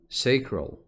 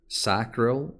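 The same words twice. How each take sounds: First: It is said with a British pronunciation. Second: It is said with an American pronunciation. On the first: "which is the British pronunciation" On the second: "which is the American pronunciation"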